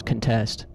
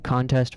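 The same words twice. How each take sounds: First: "contest" stressed on TEST, reduced first vowel; second-syllable stress. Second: "contest" stressed on CON, full first vowel; first-syllable stress. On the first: Contrasting two meanings, "contest" stressed on TEST. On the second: Contrasting two meanings, "contest" stressed on CON. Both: Shown as a demonstration. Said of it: "how you stress the word changes its meaning".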